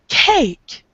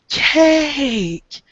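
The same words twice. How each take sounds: First: The word is said quickly with a short vowel. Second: The word is said slowly with a drawn-out vowel. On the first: "word faster, you get cake" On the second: "When you say the word, you get cake"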